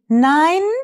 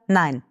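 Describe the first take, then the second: First: The voice rises at the end. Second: The voice falls at the end.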